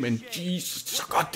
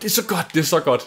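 First: Soft, breathless whisper of awe; awed hush. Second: Said in the usual way. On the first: Real, not acted. Gamer gushing over favourite game, hushed whisper. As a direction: breathe it out, overwhelmed. Gushing about Grim Fandango.

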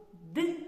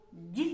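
First: Д as hard, unpalatalized "d"; hard consonant. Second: Д as palatalized "d'"; soft consonant. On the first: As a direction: set Д apart with a short dark release. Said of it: "називається твердим приголосним". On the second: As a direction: set Д apart, tongue raised, like "dyi". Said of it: "називається м'яким приголосним". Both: Shown as a demonstration.

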